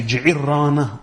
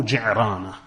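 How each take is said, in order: First: Ji'irana with an i after the catch, before the r; variant with added vowel. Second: Ji'rana with no i before the r; variant without middle vowel. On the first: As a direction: give Ji'irana its extra middle i syllable. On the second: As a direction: go straight into the r in Ji'rana. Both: Shown as a demonstration. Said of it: "you can say Ji'irana or Ji'rana".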